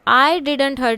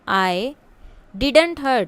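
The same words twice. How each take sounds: First: The stress falls on the word I. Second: The stress falls on the word didn't. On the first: Someone else might have hurt someone. "आई specially उस पर जोर दिया गया" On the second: The hurting did not happen. "मैंने नहीं किया है।"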